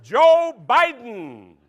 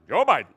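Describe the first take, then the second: First: Slow, loud name reading; slow announcer. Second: Said in the usual way. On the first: Pretend. Host announcing the word, slow and loud. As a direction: stretch the name out.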